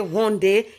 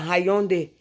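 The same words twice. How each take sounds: First: The letter y is left silent. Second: The letter y is sounded out. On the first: "I can just say Hyundai" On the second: "instead of"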